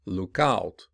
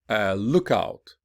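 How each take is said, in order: First: "look out" with OUT stressed; stress on second part. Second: Noun form, lean on LOOK in "a lookout"; stress on first part. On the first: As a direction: verb form, lean on OUT in "look out". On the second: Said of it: "listen to stress pattern". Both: Shown as a demonstration.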